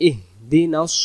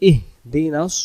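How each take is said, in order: Both takes have the same delivery.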